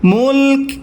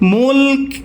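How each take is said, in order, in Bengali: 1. শব্দটি শুধু ক-ধ্বনিতে শেষ হয়। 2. শব্দটি শুধু ক-ধ্বনিতে শেষ হয়।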